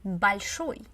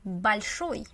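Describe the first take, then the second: The two takes are said the same way.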